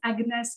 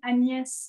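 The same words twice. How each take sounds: First: The name has an English pronunciation. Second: The name has a French pronunciation.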